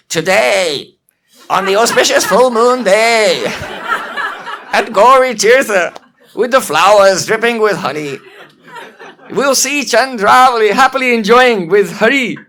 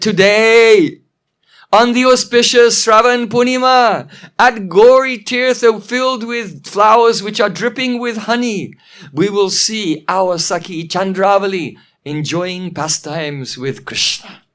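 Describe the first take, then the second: First: Loud mimicking monkey voice, hammed-up; funny mocking voice. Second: Proud, ringing proclamation settling into slower relish; relishing victory. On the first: Old monkey repeats Padma's words to tease her, mocking. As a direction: parrot a proclamation in a silly, hideous voice. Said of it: "but in a funny way". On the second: Acted. Padma foretells Chandravali's meeting with Krishna, relishing victory. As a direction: proclaim it as if victory is already won. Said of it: "she's already relishing the victory".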